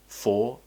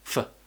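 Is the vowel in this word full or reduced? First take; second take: full; reduced. First: The vowel is full and clearly pronounced. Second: The vowel is a quick, relaxed schwa.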